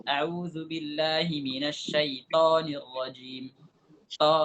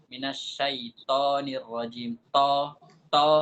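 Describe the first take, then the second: First: A'udzubillahi minasyaitonirrajim, slow, with a light to; mistaken reading. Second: Minasyaitonirrajim with a thin to, slow; wrong reading. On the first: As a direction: read it slowly with the thin to. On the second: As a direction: say to with a light rounded o, no heaviness. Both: Shown as a demonstration. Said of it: "Ada yang baca seperti itu".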